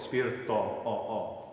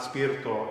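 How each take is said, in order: First: "spirito" ending on an open "aw"-like O. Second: "spirito" ending on a tight, closed "oh". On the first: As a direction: open up the final vowel of "spirito". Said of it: "They always are open". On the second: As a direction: close up the final vowel of "spirito". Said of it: "that's a closed O vowel". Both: Shown as a demonstration.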